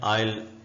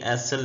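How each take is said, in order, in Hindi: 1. इस शब्द को s की ध्वनि के बिना बोला जाता है। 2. इस शब्द को s की ध्वनि के साथ बोला जाता है। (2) "इसको कुछ लोग एसल पढ़े होते हैं, ये एसल नहीं है"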